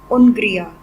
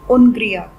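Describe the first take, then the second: Both takes have the same delivery.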